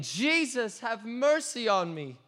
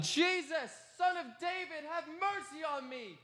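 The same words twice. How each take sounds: First: High, pleading cry from the ground; crying out again. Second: High, pleading cry for mercy; desperate shout. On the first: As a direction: beg once more, desperate. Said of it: "And I cried out again". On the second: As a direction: call out over the crowd, begging. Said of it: "and I shouted". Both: Retold or imitated.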